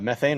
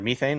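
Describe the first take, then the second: First: It is said in an American accent. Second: It is said in a New Zealand accent.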